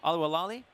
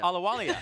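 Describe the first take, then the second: First: The name ends with an extra L sound. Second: The name ends without the extra L sound. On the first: The speaker calls it wrong. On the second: The speaker calls it right.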